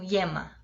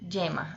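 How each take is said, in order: First: The Y sounds like an 'ee' glide. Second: The Y sounds like a 'dj'. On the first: This is how people speak in parts of Spain. "o Y também sofreria a mesma variação" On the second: This is how people speak in central Argentina. "o Y também vai ter esse mesmo som"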